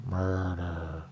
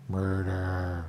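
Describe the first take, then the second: No difference in how they are said.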